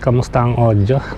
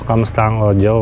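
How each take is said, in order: First: The voice is recorded about thirty meters away. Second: The voice is recorded about five meters away. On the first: "nasa thirty meters away" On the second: "siguro mga five meters to"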